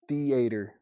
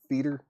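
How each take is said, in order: First: The word has three hard, separate syllables. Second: The word is squeezed into one syllable. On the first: "Three hard syllables on that one" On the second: "Like one syllable"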